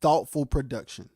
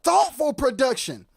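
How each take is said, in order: First: Lower, settled stress on Thoughtful; Thoughtful said low and grounded after a sigh; calm restatement. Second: High, hyped stress on Thoughtful; Thoughtful said high and pressed with energy; emphatic. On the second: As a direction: punch Thoughtful up high, then production. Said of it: "Let me tell you". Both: Shown as a demonstration.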